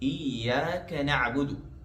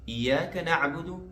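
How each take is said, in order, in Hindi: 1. y की आवाज़ लंबी खिंचती है और दोहरी होती है। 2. y की आवाज़ छोटी और इकहरी होती है। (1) "यहाँ पर या को तशदीद के साथ पढ़ना चाहिए" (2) "अगर कोई इसको ऐसी पढ़े"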